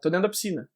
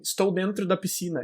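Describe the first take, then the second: First: The words are shortened and run together. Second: Every word is said in its full form. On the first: The speaker calls it right. "eu falaria" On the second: The speaker calls it wrong. "eu não falaria pra alguém"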